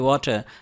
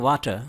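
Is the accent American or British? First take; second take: British; American. First: It is said in a British accent, lips rounded. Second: It is said in an American accent. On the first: "UK में बोला जाता है वाटर, वाटर lips को round करके" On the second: "American इसको कहते हैं वाटर"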